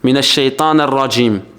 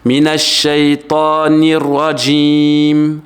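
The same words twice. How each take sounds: First: The short i vowel is muffled and barely heard. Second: The short i vowel is pronounced clearly. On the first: The speaker calls it wrong. "On n'entend pas en fait ... ils disent" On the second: The speaker calls it right.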